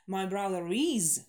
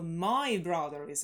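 First: The word "is" carries the main stress. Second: The word "my" carries the main stress. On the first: He really is at school right now. "и is выделить тоже окей в некоторых случаях" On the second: It is specifically my brother, not someone else's. "Если нам нужно сделать акцент на my"

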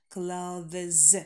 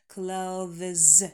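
First: A voiced th sound comes before the z. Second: The same.

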